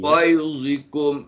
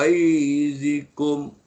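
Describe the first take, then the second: First: The first vowel is kept short. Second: The first vowel is drawn out long. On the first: The speaker calls it right. "ghai tak nak panjang" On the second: The speaker calls it wrong. "Jangan ghaizikum. Ghai tak boleh panjang lagi tu"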